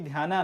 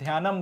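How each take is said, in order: First: The word ends with a long a vowel. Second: The word ends with an added m sound. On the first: This is the anglicized form. "Fancy अंग्रेजी में ध्याना गया है, मगर याद रखना है कि ध्याना नहीं" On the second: This is the southern Indian form. "South में अगर आप चले जाओगे तो ध्यानम बोला जाता है"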